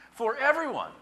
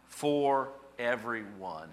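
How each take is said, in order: First: "For everyone" pitched very high and loud; emphatic exclamation. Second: "for everyone" drawn out slowly; deliberate reading. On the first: Preacher exclaiming the last phrase, emphatic. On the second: Preacher reading the last phrase, deliberate. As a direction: read "for everyone" word by word, very slowly. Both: Real, not acted.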